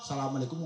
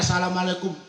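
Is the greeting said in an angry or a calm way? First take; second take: calm; angry. First: It is said calmly, softly and devoutly. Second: It is said loudly and with anger. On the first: It is the solemn greeting that closes a prayer. "khusu antep dengan hati" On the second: Someone has come to collect a debt. "kenceng campur emosi"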